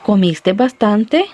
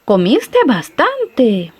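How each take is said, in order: First: "¿Comiste bastante?" slow, ending on a rising question tune; asking a question. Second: "Comiste bastante" very slow, falling on "bastante" in amazement; surprised exclamation. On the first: Friend asks someone with a stomach ache, slow rising question. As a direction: ask slowly, lifting "bastante" at the end. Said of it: "y nos hace la pregunta". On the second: Person amazed after a huge meal, slow surprised exclamation. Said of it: "está muy sorprendida esta persona". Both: Shown as a demonstration.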